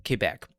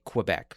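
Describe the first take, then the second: First: Said in the usual way. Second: Quebec with a kw start, "kwuh-BEK"; anglicized Quebec. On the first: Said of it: "I'll call it Quebec". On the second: Shown as a demonstration. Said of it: "as English speakers sometimes say".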